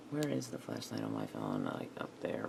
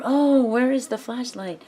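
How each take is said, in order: First: Muttered low and much softer, half to herself; low mumble to herself. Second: Higher and louder, a hammed-up flustered "Oh"; mock exasperated self-quote. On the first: Real, not acted. Searching her phone, mumbling the question low and soft. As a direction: murmur the question under your breath, much lower and softer. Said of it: "I gotta remember". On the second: Mimicking herself hunting for the flashlight, mock flustered and louder. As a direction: play up your own silly forgetfulness, higher and louder. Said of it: "I gotta remember, "Oh, where is the flashlight?".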